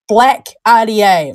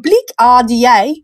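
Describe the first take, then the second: First: The word 'black' has a standard vowel. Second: The word 'black' has a distorted, accented vowel. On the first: "That was normal" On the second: "we all know that I like to talk about my bleak"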